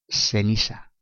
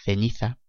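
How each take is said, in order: First: The c and z sound like an s. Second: The c and z sound like English th. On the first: This is how it is said in Latin America. "en Latinoamérica y algunas regiones de España, este fonema suena más parecido a una S" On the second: This is how it is said in Spain. "en España pronunciamos la letra Z como la TH del inglés"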